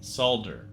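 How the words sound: The word is said the British and Australian way. "I've watched a lot of Australians and English guys play this game, and they say solder"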